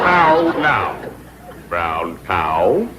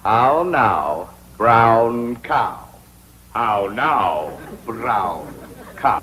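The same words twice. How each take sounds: First: How now, brown cow, exaggerated sing-song rise; diction drill. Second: How now, brown cow, each word rounded and drawn out; over-enunciate How now, brown cow like an elocution teacher; diction drill. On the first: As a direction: elocution teacher drilling. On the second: A diction teacher drilling his pupil, over-enunciated. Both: Shown as a demonstration. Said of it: "practice diction and intonation".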